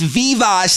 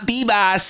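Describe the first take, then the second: First: The name begins with a V sound. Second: The name begins with a B sound. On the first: This is how some people think the name is said. The speaker calls it wrong. "some people were like, it's Vivas" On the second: This is the name's actual pronunciation. The speaker calls it right. "that's how you pronounce his name"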